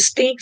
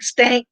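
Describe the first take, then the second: First: Said in the usual way. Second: Stank with an A as in tank; playful stank instead of stink. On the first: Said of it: "You said stink". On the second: Shown as a demonstration. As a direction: broaden the vowel in stank to rhyme with bank. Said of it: "stank is stankier".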